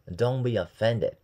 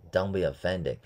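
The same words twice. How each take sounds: First: Drawn-out careful Don't be offended; slow it right down for students; slow model. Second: Said in the usual way. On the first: Shown as a demonstration. Teacher slowly modeling Don't be offended for learners, drawn out. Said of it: "teacher demo, slow". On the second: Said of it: "teacher demo, normal".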